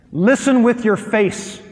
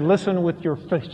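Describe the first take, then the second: First: Slow, stressed "Listen with your face"; emphatic instruction. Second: Laughing quote of wife. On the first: Shown as a demonstration. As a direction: press each word of "Listen with your face" slowly. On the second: Retold or imitated. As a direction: laugh while quoting "Listen with your face". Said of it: "my wife grabbed me and said".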